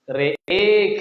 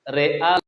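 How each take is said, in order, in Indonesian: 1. Vokal setelah hamza condong ke 'e'. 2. Vokal setelah hamza adalah 'a' biasa. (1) "Alif mumalahnya itu dia dibaca dibaca alif mumalah dibaca e ya, yang atas" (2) "yang bawah alifnya huruf asliyah"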